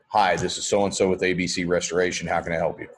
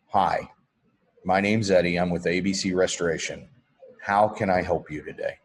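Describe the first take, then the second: First: The voice sounds bored and uninterested. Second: The voice sounds warm and personable.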